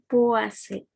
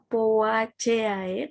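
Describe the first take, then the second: First: The ending is shortened to sound like 'a-se'. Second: The ending keeps every vowel sound separate. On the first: "tapi dibacanya Poaceae" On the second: "walaupun ditulisnya Poaceae"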